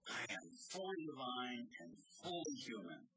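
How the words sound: It is said with fervent, eager zeal.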